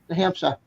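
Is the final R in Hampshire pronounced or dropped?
dropped. The final R sound is dropped. "We drop the R's"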